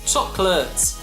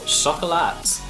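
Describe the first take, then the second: First: It is said with an English pronunciation. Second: It is said with a French pronunciation.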